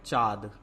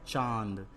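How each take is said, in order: First: चाँद with a purely oral long aa, no nasal; चाँद said as "chaad"; missing nasal. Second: चांद with the long aa through the nose; चांद said as "chaand"; nasalized vowel. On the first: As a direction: drop the chandrabindu nasal from चाँद. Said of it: "तो चाँद नहीं होता". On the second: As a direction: put the chandrabindu nasal into चांद. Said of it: "क्या होता है". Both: Shown as a demonstration.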